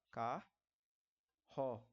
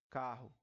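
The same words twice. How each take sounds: First: "Carro" broken as car, long pause, ro; syllable by syllable. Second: Said in the usual way. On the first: Shown as a demonstration. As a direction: say "Carro" in two detached syllables, low. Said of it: "Como é que você vai separar?". ("Carro" separado em duas sílabas, com pausa longa)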